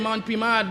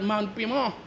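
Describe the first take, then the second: First: The name ends with a d sound. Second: The name ends with a vowel sound. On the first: This is how other people say it. The speaker calls it wrong. "People say Mount Pimad" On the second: This is how it was said locally long ago. The speaker calls it right. "I grew up knowing that Mount Pima"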